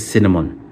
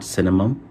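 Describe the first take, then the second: First: The word ends with an n sound. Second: The word ends with an m sound. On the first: The speaker calls it right. "सही pronounce कर पा रहा हूँ" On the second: The speaker calls it wrong. "Not सिनेमम"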